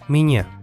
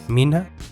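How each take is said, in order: First: The n is a palatal ny sound. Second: The n is a plain n sound. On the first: "se convierte en Iña"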